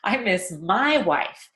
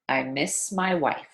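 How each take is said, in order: First: The word my is clearly stressed. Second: The word my is not stressed. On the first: "you would stress the word my on purpose" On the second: "that's the way I'd say it in a normal sentence"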